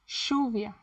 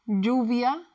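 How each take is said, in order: First: The ll sounds like English sh. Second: The ll sounds like the English y.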